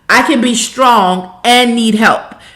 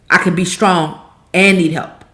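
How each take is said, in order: First: It is said at the loudest volume. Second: It is said louder than before. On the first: "louder and louder"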